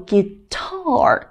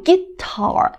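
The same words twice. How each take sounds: First: "guitar" with a long, falling, stressed "tar"; short "gui", then stretch and stress "tar" in "guitar"; stress on second syllable. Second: "guitar" with the weight wrongly on "gui"; stress on first syllable. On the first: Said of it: "要读guitar". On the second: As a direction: hit "gui" and let "tar" drop in "guitar". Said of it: "不能读guitar". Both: Shown as a demonstration.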